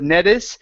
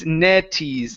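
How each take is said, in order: First: The vowel before the final s is short and reduced. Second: The vowel before the final s is a clear E. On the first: The speaker calls it wrong. "make sure to pronounce an E instead of Nettis" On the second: The speaker calls it right. "It's Netties"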